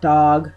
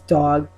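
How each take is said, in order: First: The vowel is not an ah sound. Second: The vowel is an open ah sound. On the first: The speaker calls it wrong. "it's not dog" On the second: The speaker calls it right. "It's dog. So again, it's really that ah sound"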